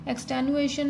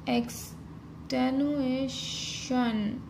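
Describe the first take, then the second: First: Said in the usual way. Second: एक्सटेनुएशन drawn out very slowly, each syllable stretched; slow dictation. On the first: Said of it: "एक्सटेनुएशन में उएशन वाली sound". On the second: Shown as a demonstration. Teacher writing the shorthand outline, saying it slowly. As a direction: stretch एक्सटेनुएशन out as you write it. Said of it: "इश और N hook".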